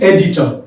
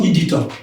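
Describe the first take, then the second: First: "editor" starting with open E, "EH-ditor"; correct editor pronunciation. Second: "editor" starting with EE, "ee-ditor"; wrong editor pronunciation. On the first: Teacher showing the right sound, "editor" as EH-ditor. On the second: Teacher showing the error to avoid, "editor" as EE-ditor. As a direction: close I sound opening "editor". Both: Shown as a demonstration. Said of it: "not editor".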